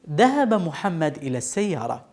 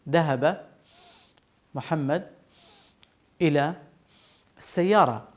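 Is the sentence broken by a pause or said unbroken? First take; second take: unbroken; broken. First: The sentence flows without any internal pause. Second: A pause breaks the sentence in the middle. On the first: The speaker calls it right. "ولكن نقول" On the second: The speaker calls it wrong. "فلا أقول"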